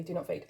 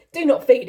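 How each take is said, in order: First: Softer do not feed; a soft final repeat; muttered repeat. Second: Louder, punchy do not feed; amused loud repeat; laughing emphasis. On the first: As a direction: settle it quietly to yourself. Quiet repeat of the label. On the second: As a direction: hit NOT while still laughing. Laughing at her own warning label. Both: Real, not acted.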